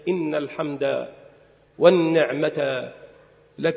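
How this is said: There is a pause just before 'lak'. The speaker calls it wrong. "وأما ما يفعله الناس فغير ذلك ... ليس هذا بصواب"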